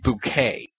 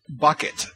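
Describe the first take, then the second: First: It is said like the word bouquet. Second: It is said like the word bucket. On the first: The name is made to sound more refined. "she decides we're pronouncing it Bouquet" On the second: The name is read as it is spelled.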